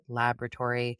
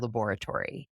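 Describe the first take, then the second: First: It is said with an American pronunciation. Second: It is said with a British pronunciation.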